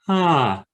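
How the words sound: The vowel starts cleanly, neither breathy nor abrupt.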